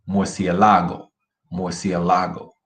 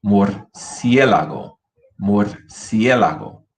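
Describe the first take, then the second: First: Murciélago wrongly stressed on LA; misplaced stress on LA. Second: Slow murciélago with a strong, drawn-out CIÉ; stress on CIÉ. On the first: Teacher contrasting the incorrect form, stress on LA in murciélago. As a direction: put the weight on LA in murciélago. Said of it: "where to put the emphasis". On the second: Teacher asking students to listen, slow stress on CIÉ in murciélago. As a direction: slowly punch the CIÉ of murciélago. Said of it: "Listen to the difference". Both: Shown as a demonstration.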